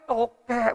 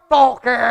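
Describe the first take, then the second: First: The word is said more weakly and quietly. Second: The word is called out very loudly.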